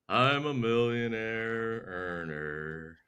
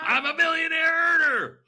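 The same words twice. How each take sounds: First: It is said in a gloomy, Eeyore-like voice. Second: It is said with excited, believing emotion.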